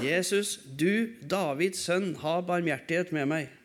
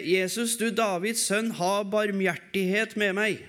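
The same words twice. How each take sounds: First: Quiet prayer. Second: A raised, pleading call to Jesus; crying out for mercy. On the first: Shown as a demonstration. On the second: Retold or imitated. Blind beggar calls out to Jesus, raised plea. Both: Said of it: "Med for full hals roper han det".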